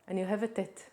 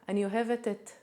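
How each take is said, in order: The two takes are said the same way.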